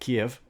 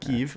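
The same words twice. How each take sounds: First: The name has a Russian-style pronunciation. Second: The name has a Ukrainian-style pronunciation. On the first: "Kiev in Russian" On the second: "Kiev in my New Zealand accent, but also in Ukrainian"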